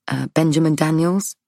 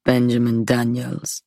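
First: Benjamin Daniels asked with a rising tune at the end; questioning rise. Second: Benjamin Daniels repeated flat and falling, not a question; flat statement. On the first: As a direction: say the name hopefully, lifting at the end as a question. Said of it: "Not a question". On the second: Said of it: "Not a question, just the name, repeated". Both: Acted.

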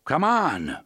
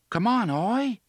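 First: Loud, firm shout against the wind. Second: High, loud call across the gap. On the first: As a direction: shout the order across. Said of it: "Roland shouted". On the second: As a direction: call out to the animal. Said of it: "Jake called". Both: A narrator's reading.

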